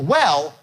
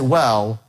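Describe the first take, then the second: First: The word goes up to a high pitch. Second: The word starts at a low pitch. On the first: The speaker calls it right. "So you go up on well" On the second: The speaker calls it wrong. "you can't get there"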